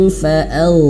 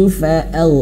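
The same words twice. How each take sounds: Both takes have the same delivery.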